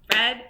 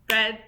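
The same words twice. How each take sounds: The two takes are said the same way.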